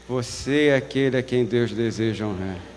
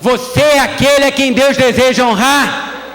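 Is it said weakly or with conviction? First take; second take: weakly; with conviction. First: It is said weakly, without conviction. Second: It is said firmly, with strong conviction.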